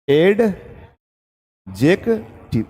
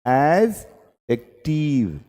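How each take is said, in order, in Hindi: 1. d की ध्वनि साफ़ है, अक्षर अलग-अलग बोले गए। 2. d की ध्वनि छोड़ दी गई है, बात सहजता से बोली गई।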